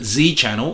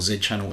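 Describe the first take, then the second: First: The name is said with an American pronunciation. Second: The name is said with a British pronunciation. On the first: "in American English" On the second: "in Australian and British English"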